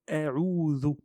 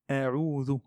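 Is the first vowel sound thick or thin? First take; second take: thin; thin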